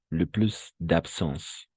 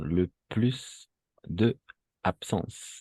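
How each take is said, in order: First: De loses its vowel and joins absence. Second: De is a separate full syllable before absence. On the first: The speaker calls it right. "como hay una inicial ahí A, entonces vamos a hacer de apóstrofe" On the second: The speaker calls it wrong.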